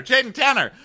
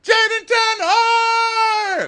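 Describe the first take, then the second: First: Much higher, excited name chant; mock excitement. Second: Very high, drawn-out mock scream; hammed-up excited shout. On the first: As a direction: start hyping the name in a high voice. Excited chant of couple's name, building. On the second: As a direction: shriek the name as a long, overblown climax. Chant climaxes in a shout.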